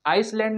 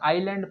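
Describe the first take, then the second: First: An s sound is pronounced in the word. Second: No s sound is pronounced in the word. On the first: The speaker calls it wrong. "आइसलैंड नहीं पढ़ेंगे" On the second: The speaker calls it right. "क्योंकि एस silent है"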